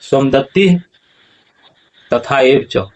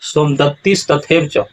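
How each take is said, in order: First: No 's' sound follows 'somadatti'. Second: An 's' sound follows 'somadatti'. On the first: The speaker calls it right. "ऐसा होगा" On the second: The speaker calls it wrong. "ऐसा उच्चारण नहीं होगा"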